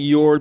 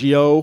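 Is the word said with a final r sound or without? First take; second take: with r; without r. First: The word ends with a clear r sound. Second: The word ends in a vowel with no r. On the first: "it stops being your" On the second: "becomes yo"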